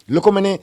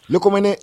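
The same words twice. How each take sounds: The two takes are said the same way.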